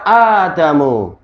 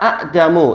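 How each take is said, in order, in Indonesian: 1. Diawali dengan bunyi a panjang. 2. Ada hamzah sebelum vokal. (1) "yang dilafatkan berupa alif, sementara yang ditinggalkan adalah hamzah"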